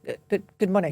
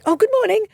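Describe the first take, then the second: First: The greeting sounds startled and hesitant. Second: The greeting sounds warm and enthusiastic.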